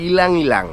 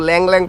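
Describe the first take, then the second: First: Each part starts with an 'ee' vowel before 'l'. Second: Each part starts directly with an 'l' sound. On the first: The speaker calls it right. "এটা ইলাং ইলাং" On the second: The speaker calls it wrong. "আমি তো ল্যাং ল্যাং ফার্স্টে পড়তাছিলাম"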